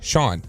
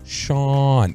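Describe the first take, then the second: First: The name is said quickly and casually. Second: The name is drawn out and carefully emphasized. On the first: This is how people normally say it. The speaker calls it right. "They just say Sean" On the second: This is not how people really say it. The speaker calls it wrong. "Nobody goes Sean"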